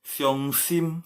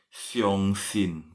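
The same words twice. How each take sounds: First: "Xiong Sim" slowly, lips closing on a final M. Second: "Xiong Sin" very slowly, ending on N; final N in "Sin". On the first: Teacher showing students the word for sad, "Sim" closed on M. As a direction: end "Sim" on a hummed M, drawn out. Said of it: "Sim itu ya ada M ya". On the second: Teacher showing students the word for believe, "Sin" ending on N. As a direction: draw out "Xiong Sin", tongue-tip N at the close. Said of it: "intonasinya ya, Sin". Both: Shown as a demonstration.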